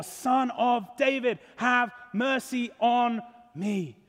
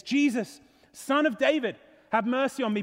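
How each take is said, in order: First: Slow, drawn-out cry for mercy; crying out more. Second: Mildly raised plea to a passer-by; crying out. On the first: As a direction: stretch each word into an insistent plea. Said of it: "cries out all the more". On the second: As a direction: call out for mercy, raised but controlled. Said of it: "the blind man cries out". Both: Acted.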